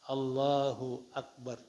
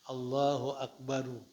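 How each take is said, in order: First: The last word ends with a bare r. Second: The last word ends with an added u vowel.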